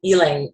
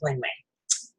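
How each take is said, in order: First: It is said like 'ee-lahng ee-lahng'. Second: It is said like 'ling ling'. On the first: The speaker calls it right. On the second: The speaker calls it wrong.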